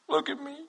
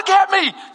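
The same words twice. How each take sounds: First: It sounds reluctant and downcast. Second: It sounds eager and excited.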